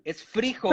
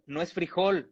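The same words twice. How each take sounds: First: Frijol with the stress on FRI, pitched higher; stress on first syllable. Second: Said in the usual way. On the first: Shown as a demonstration. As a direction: hit the I in frijol, Colombian style. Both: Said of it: "lo escriben con la tilde en la I".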